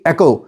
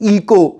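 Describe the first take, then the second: First: It starts with 'eh' and has a 'k' sound. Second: It starts with 'ee' and has a 'k' sound. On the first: The speaker calls it right. "But it is actually एको" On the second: The speaker calls it wrong. "ज्यादा students क्या कहेंगे? इको"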